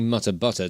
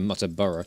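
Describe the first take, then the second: First: The middle part sounds like 'butter'. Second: The middle part sounds like 'burra'. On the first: The speaker calls it wrong. "I keep keep saying Muttabutter" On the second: The speaker calls it right. "instead of Muttaburra"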